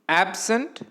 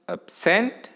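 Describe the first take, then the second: First: The stress is on the first syllable. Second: The stress is on the second syllable.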